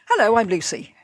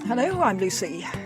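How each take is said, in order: First: It is said in a lively tone. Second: It is said in a bored tone.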